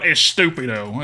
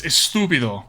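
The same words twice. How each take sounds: First: "estúpido" said with the put-on Southern accent. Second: "estúpido" with proper Spanish sounds, accent dropped. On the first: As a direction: say "estúpido" loosely, keeping the Southern-style English accent. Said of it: "I can say it better than that". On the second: Shown as a demonstration. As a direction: say "estúpido" the Spanish way, opening on a clear "es". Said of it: "the best way to say stupid is".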